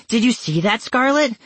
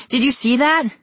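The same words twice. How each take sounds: First: High, excited shout; screaming. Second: Higher, more frantic shout; screaming louder. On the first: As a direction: shout it out in alarm. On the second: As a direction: push the alarm even further. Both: Acted. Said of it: "I screamed".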